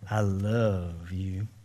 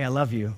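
First: It is said in a soft, intimate tone. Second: It is said in a light, friendly tone. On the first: Romantic affection. "Don't say that to the wrong person that way" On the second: Plain friendly affection. "tone of our voice to clarify this"

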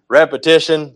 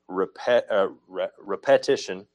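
First: The stress falls on the usual syllable. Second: The stress falls on the offbeat syllables.

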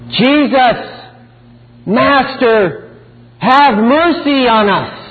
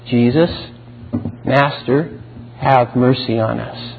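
First: The plea is cried out loudly and desperately. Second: The plea is said calmly at normal volume. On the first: "They are crying out" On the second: "Nor were they calmly requesting"

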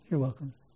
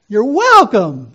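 First: It is said in a flat, unexcited way. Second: It is said in an excited, joyful way.

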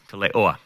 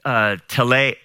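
First: The word ends with an added extra vowel. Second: The word ends on a single final vowel. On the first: The speaker calls it right. "with that last one, I think I'm pronouncing it correctly" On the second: The speaker calls it wrong. "I'm not pronouncing right"

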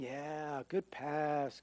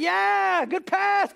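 First: It is said flatly, without emotion. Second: It is said with excited emotion.

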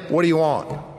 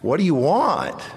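First: It is said in an irritated, impatient tone. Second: It is said in a warm, affectionate tone.

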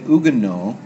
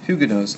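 First: The word is pronounced the French way. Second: The word mixes French and English pronunciation. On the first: "in the French we would say Huguenot" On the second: "a compromised pronunciation of Huguenots"

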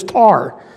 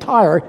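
First: The word has a flattened vowel, like tar. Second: The word has a full two-part vowel.

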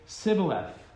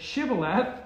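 First: It begins with an s sound, Ephraimite style. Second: It begins with an sh sound, Gileadite style.

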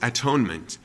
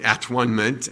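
First: The middle part sounds like 'own'. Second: The middle part sounds like 'one'. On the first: "it's come down to us as atonement" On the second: "we don't pronounce it at-one-ment at all"

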